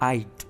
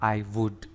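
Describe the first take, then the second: First: It is said as one short syllable. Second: It is said as two full syllables.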